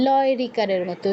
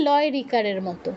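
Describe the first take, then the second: No difference in how they are said.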